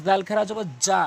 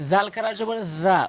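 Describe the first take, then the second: First: জা said with a Bengali j sound, the wrong way; imitating how most people say জা with a hard j; common mistake. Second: জাল খারা জবর জা spelled out with a clear z in জা; correct Arabic sound. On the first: Teacher imitating the common wrong reading, hard j in জা. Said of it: "অধিকাংশ লোক". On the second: Teacher showing the right Quran pronunciation, z sound in জা. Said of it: "উচ্চারণটা হচ্ছে main". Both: Shown as a demonstration.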